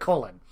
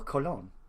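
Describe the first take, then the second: First: It is said like the English word colon. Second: It is said unlike the English word colon. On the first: The speaker calls it wrong. "it just sounds like colon" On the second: The speaker calls it right. "if you don't pronounce that right"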